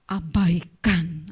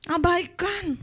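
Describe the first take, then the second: First: "Abaikan" drawn out very slowly; "Abaikan" said very slowly and low; slow stress. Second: "Abaikan" said higher with a falling end; "Abaikan" pitched up and falling; higher repeat. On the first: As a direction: stretch "Abaikan" out slowly and deliberately. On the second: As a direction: lift "Abaikan" high then drop it. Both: Shown as a demonstration.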